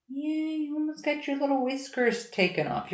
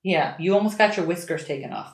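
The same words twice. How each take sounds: First: High, soft cooing pet voice. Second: Said in the usual way. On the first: Real, not acted. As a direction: coo the words softly at the cat. Cooing at the cat. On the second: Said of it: "same words said twice".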